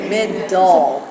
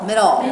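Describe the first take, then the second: First: The word is said slowly, syllable by syllable. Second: The word is said at a normal speed.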